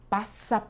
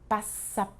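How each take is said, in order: No difference in how they are said.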